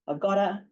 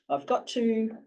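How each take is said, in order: First: Got and to run together into gotta. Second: Got and to are said as separate full words.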